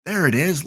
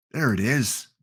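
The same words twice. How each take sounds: First: Higher and louder, delighted; excited find. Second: Said in the usual way. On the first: Real, not acted. Streamer finds Resolute Bay on map for viewers, excited. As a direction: pop it out like you just spotted it.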